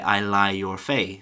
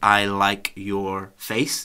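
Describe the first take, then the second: First: The final K sound of like is dropped. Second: The final K sound of like is pronounced. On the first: The speaker calls it wrong. "final consonant sounds are a problem" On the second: The speaker calls it right. "instead of saying"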